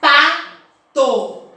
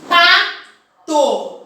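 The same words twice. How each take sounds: First: Pato said in two clear beats, pa-to; syllable demo. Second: Pato split clearly into pa-to; syllable demo. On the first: Teacher repeating the example for her class, split. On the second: Teacher showing a two-syllable word, split. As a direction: say Pato in two separate beats. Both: Shown as a demonstration. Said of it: "Eu abro a boca duas vezes".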